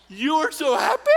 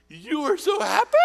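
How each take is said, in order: First: Put-on high, loud old-lady squeal again in full; imitating the old woman. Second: Put-on high, loud old-lady squeal; imitating the old woman. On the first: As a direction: belt it just like the old lady did. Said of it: "Just like that". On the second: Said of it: "And she says".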